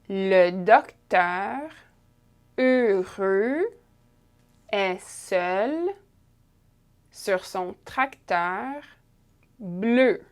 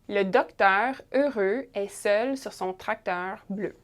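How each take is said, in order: First: It is read slowly with carefully pronounced sounds. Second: It is read at a normal conversational speed. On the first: "a little bit more slowly, a little bit more pronounced" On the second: "at a regular pace now"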